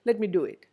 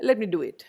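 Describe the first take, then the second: The two takes are said the same way.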